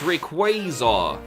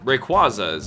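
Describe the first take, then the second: First: The ending sounds like the word quasar. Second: The ending does not sound like quasar.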